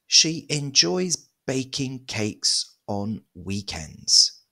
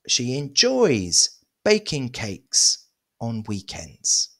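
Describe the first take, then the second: First: No word gets special emphasis. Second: The verb 'enjoys' is emphasized.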